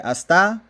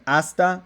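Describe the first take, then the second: First: The stress is shifted to the other syllable. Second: The stress falls on the usual syllable. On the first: The speaker calls it wrong. "minus one point um, for the misplaced accent" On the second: The speaker calls it right. "Instead of saying hasta"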